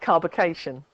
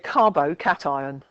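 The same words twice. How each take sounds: First: The ending sounds like the end of 'vacation'. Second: The ending sounds like 'cat ion', with separate syllables. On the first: The speaker calls it wrong. "it would look like carbocation" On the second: The speaker calls it right. "but it's actually a carbocation"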